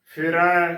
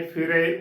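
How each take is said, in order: First: ਫਿਰੈ ending in open ai, like 'ae' in cat. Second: ਫਿਰੇ ending in a narrow long e, as 'ay'; close e ending. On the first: Teacher spelling the word with dulawan, ਫਿਰੈ with open ai. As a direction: open the last vowel of ਫਿਰੈ wide. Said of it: "ਰਾਰੇ ਨੂੰ ਦੁਲਾਵਾ ਰੈ". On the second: Teacher showing how congregations say it, ਫਿਰੇ with close e. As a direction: close the final vowel of ਫਿਰੇ. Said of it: "ਜੋ ਕਿ ਗਲਤ ਉਚਾਰਨ ਹੈ". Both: Shown as a demonstration.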